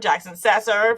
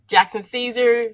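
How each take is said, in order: First: The surname has a Spanish pronunciation. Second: The surname has an English pronunciation.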